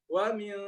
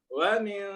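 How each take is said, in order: The two takes are said the same way.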